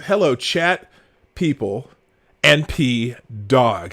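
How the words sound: It is read with an odd rhythm.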